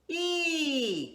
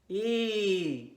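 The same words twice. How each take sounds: First: It is spoken at a middle pitch. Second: It is spoken at a low pitch. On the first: "Start in the middle voice" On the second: "How about in your low voice?"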